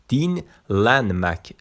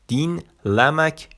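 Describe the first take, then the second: First: DİN held, then "دینلنمک" finished with a clear n in LAN; contrastive emphasis. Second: DİN held high, then "دینلمک" finished with "la", no n; contrastive emphasis. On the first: Teacher contrasting two similar verbs for learners, contrastive emphasis on دینلنمک. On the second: Teacher setting it against the similar verb, contrastive emphasis on دینلمک. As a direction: point up the n-less "la" in دینلمک. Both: Shown as a demonstration. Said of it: "نگاه کن".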